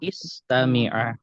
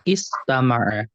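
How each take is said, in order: First: The vowel after the m is 'i'. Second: The vowel after the m is 'a'. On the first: The speaker calls it wrong. "bukan istami'a" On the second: The speaker calls it right. "Jadi istama'a"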